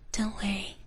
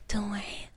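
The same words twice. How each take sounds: The two takes are said the same way.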